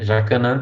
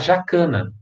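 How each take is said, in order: First: The stress falls on the last syllable. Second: The stress falls before the last syllable. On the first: It is the Portuguese pronunciation. The speaker calls it wrong. "jacanã tá errado" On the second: It is the Latin pronunciation. The speaker calls it right. "Então você antecipa"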